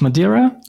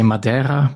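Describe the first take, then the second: First: It is said with an English pronunciation. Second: It is said with a Portuguese pronunciation. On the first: "that's how we pronounce it in English" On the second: "we say Madeira"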